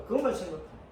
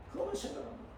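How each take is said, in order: First: Said in the usual way. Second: Whispered. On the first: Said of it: "repeated as whisper". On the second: Shown as a demonstration. Preacher hushes the congregation, whispering. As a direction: whisper the line, no voice. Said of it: "same words whispered".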